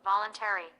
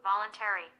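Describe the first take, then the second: Both takes have the same delivery.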